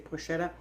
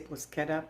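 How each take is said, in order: First: It is pronounced the American way. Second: It is pronounced the Italian way. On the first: "American people say bruschetta" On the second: "Italian people say bruschetta"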